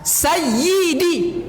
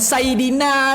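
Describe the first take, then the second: First: The y sound is held and doubled. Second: The y sound is short and single. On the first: The speaker calls it right. "Tasdid ya" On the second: The speaker calls it wrong. "bukan sayyidina doh. Jangan baca sayyidina sukun"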